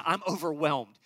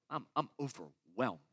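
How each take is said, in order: First: Said in the usual way. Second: I'm overwhelmed said lower and softer, drained; weary and low. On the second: Acted. Pastor voicing a weary listener, low and drained. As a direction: let it sink, spent and tired.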